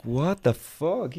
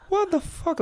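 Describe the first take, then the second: First: "What the fuck?" drawn out slowly in shock; slow shocked disbelief. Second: "What the fuck?" in a much higher, shrieking register; high shocked squeal. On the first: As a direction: stretch "What the fuck?" like you can't believe it. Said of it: "And I was like". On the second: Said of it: "I'm like". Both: Retold or imitated.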